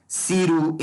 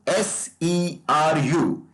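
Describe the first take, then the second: First: Seru said as one word, not spelled; pronounced as a word. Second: S E R U said letter by letter; each letter of S E R U named separately; spelled out. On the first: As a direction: run seru together as a two-syllable name. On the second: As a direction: spell out S E R U slowly, one letter at a time. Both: Shown as a demonstration. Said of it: "it will be pronounced as seru".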